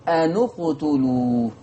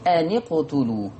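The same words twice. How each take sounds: First: Slow أنو اقتلوا, the nun rounded to u; أنو اقتلوا بضم النون; nun with damma, Warsh. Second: أن اقتلوا said slowly as "ani qtulu", the nun given a kasra; أن اقتلوا بكسر النون; nun with kasra, Hafs. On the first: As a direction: lean on the u of أنو before qutulu. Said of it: "عشان كده بقول ايه". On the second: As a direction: break the nun with an i before اقتلوا. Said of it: "يكسر الساكن الأول". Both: Shown as a demonstration.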